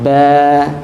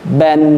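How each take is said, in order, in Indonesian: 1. Kata ini berakhir dengan vokal panjang. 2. Kata ini berakhir dengan bunyi n.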